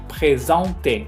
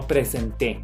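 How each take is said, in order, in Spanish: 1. El 'en' se pronuncia como un 'on' nasal. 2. El 'en' se pronuncia como un 'en' simple. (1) "acuérdense por favor de pronunciarlo como on"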